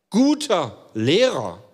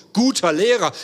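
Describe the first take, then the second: First: „Guter Lehrer“ drawn out slowly, both words weighted; slow emphasis. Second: „guter“ punched a bit louder, falling on „Lehrer“; stress on guter. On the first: Preacher quoting the rich man, slow stress on „Guter“. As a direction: let „Guter Lehrer“ fall slow and heavy. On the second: Preacher repeating the address with stress on „guter“. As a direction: hit the word „guter“ firmly. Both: Shown as a demonstration. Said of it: "Also nochmal die Betonung".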